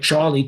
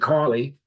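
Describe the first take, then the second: First: The name begins with a ch sound. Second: The name begins with a k sound. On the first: The speaker calls it right. "I pronounce it properly" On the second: The speaker calls it wrong. "C H would be Carly"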